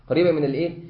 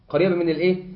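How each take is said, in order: Both takes have the same delivery.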